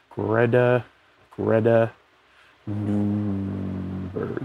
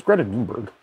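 First: "Greta", pause, "Greta", pause, long drawn-out "Nunberg"; absent-minded, halting sounding-out of "Greta Nunberg"; sounding out slowly. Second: Said in the usual way. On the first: Real, not acted. Sounding out a name while searching.

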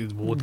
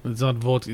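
First: Vodka said as wodka, v turned to w; mock Russian v. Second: Vodka said with a normal v; pron 1. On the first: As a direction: vodka with a w sound like a Russian accent. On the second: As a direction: vodka with a v sound as in English. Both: Shown as a demonstration.

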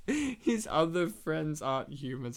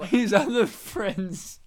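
First: Said in the usual way. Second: Slow, with "other" hit hard; stress on OTHER. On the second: Shown as a demonstration. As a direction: lean on the word "other".

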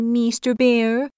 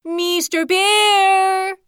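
First: Higher, slow, humble "Mister Bear"; timid little creature voice; polite hedgehog address. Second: Long, high, stretched-out call across the river; a small creature's drawn-out yell; hedgehog's greatest shout. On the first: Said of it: "Please be pardoning me". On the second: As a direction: shout to catch a bear's attention. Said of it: "he mustered the greatest shout". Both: Acted.

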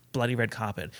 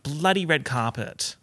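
First: "Bloody red carpet" low, soft and even; rolled evenly. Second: "Bloody" drawn out and punched; slow down and lean on "Bloody"; normal Aussie cadence. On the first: Showing the careful way, "Bloody" rolled past softly. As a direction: roll straight through "Bloody" without punching it. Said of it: "like, roll it". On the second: Showing the accidental swearing, "Bloody" stretched like a curse. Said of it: "if I talked in my normal cadence". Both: Shown as a demonstration.

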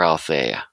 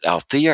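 First: "Althea" with an AY in the middle; pronounced al-FAY-uh. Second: "Althea" with an EE in the middle; pronounced al-THEE-uh. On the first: Host offering the other pronunciation, "Althea" as al-FAY-uh. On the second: Host checking a book title's pronunciation, "Althea" as al-THEE-uh. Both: Shown as a demonstration. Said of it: "I always forget, is it".

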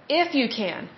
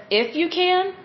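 First: Said in the usual way. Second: "If you can?" pitched much higher as a challenge; "If you can?" rising high, questioning; incredulous question. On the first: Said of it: "That word "if". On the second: Retold or imitated. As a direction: call him out with disbelief. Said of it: "Jesus calls him out on that".

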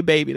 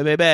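First: Said in the usual way. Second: Put-on "Baby" in a New Orleans accent. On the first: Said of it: "I love how they say". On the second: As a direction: imitate New Orleans locals saying "Baby". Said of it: "They be like".

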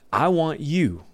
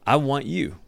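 First: "want" pushed high and falling; "want" carries the weight; stress on want. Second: "I" pressed first and falling; the speaker insisting "I" want you; stress on I. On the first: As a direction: lean on "want" in I want you. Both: Shown as a demonstration.

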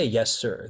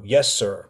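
First: Said in the usual way. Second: Obedient reply. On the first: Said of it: "But they don't say". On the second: Retold or imitated. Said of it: "they'll be like".

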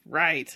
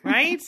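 First: "Right." falling, firm and final; settled fall. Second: "Right?" with a rising question tune; questioning rise. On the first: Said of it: "answering own question". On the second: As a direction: ask "Right?" lifting at the end. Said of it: "checking agreement". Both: Real, not acted.

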